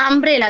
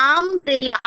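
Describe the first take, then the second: First: Said in the usual way. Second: আমব্রেলা with the first আ sound drawn out; teacher sounding out the start of আমব্রেলা; opening vowel shown. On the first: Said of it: "সবাই উচ্চারণ করো". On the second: Shown as a demonstration. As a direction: split আমব্রেলা after আম to show its opening vowel. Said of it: "আ উচ্চারণ করছি".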